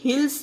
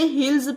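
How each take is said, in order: First: The word ends with an s sound. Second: The word ends with a z sound. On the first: The speaker calls it wrong. "ये हिल्स नहीं पढ़ेंगे guys" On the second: The speaker calls it right. "इसे हिल्स पढ़ेंगे"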